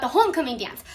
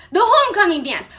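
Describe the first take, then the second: First: Said in the usual way. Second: "homecoming" pitched higher, with a falling finish; emphatic repeat. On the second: Real, not acted. Girl telling what she really cared about, "homecoming" stressed. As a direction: hit "homecoming" hard as the big deal.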